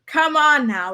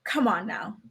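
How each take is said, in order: First: Higher and louder, exasperated. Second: Said in the usual way. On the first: Real, not acted. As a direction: push the repeat up in disbelief.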